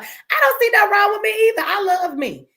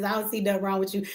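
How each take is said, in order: First: Louder and higher, proudly stating it; "don't" hit hard, chin up, owning herself; defiant proud declaration. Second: Said in the usual way. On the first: Real, not acted. Answering a viewer's compliment on live stream, defiant and proud.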